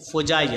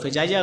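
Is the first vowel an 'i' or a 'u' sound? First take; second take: u; i. First: The first vowel is an 'u' sound. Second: The first vowel is an 'i' sound. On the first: The speaker calls it right. "फ़ुजाइया पढ़ा जाए" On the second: The speaker calls it wrong. "फ़िजाइया गलत है"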